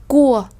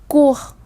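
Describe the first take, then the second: No difference in how they are said.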